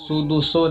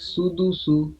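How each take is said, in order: First: It uses s sounds and ends in o. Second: It uses s sounds and ends in u. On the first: The speaker calls it wrong. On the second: The speaker calls it right.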